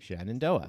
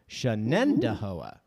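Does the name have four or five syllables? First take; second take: four; five. First: The name is said with four syllables. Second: The name is said with five syllables. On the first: The speaker calls it wrong. "The name looks like Shenandoah, four syllables" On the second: The speaker calls it right. "But it actually has five syllables"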